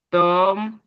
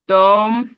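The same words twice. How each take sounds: First: Said in the usual way. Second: "Tom" called out louder; loud model word. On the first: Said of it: "repeat of model word". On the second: Shown as a demonstration. Teacher calling out "Tom" for pupils to repeat. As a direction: give the class a strong "Tom" to copy. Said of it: "teacher models word for repeating".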